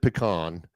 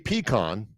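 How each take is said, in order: First: The stress is on the second syllable. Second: The stress is on the first syllable. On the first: "I've always called it pecan" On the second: "accent the first syllable"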